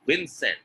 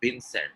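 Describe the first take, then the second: First: "Vincent" starting on a true v; lip-to-teeth v in "Vincent"; correct V sound. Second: "Vincent" as "Bincent"; wrong B sound. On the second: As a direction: press both lips to begin "Vincent". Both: Shown as a demonstration. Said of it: "it is not Vincent".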